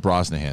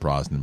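First: The name is said with three syllables. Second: The name is said with two syllables. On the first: The speaker calls it right. "it's Rachel Brosnahan" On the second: The speaker calls it wrong. "not Brosnan"

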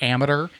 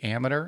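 First: The word is said at a slower pace. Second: The word is said at a quick pace.

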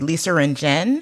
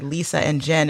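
First: An R sound is added after Lisa. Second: No R sound is added after Lisa. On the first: "it'd be Lisa and Jen. And it's like, well, there's no R there" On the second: "you wanted to say Lisa and Jen"

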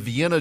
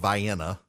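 First: The name is said the usual way. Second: The name is said the Georgia way. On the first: "There's a Vienna" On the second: "but it's called Vienna"

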